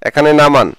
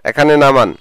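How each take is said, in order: Both takes have the same delivery.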